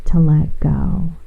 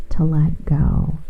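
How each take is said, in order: Both takes have the same delivery.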